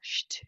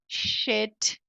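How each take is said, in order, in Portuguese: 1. O sh vai direto para o t, sem vogal. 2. Um som de vogal é inserido entre o sh e o t. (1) "não tem E aqui. Não existe um som de E" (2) "você vai ter um impulso muito grande de falar shit"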